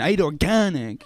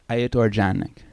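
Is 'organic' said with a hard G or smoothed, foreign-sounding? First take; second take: hard G; smooth. First: Organic has a hard, forceful G. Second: Organic is smoothed in a put-on foreign style.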